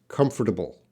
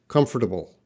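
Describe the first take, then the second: No difference in how they are said.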